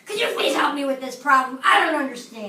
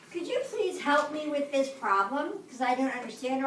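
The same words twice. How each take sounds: First: Loud, angry demand for help. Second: Gentle, polite ask for help; polite classroom request. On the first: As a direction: snap it out, louder and annoyed. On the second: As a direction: ask nicely, calmly. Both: Shown as a demonstration. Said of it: "My tone, same words, different tone of voice".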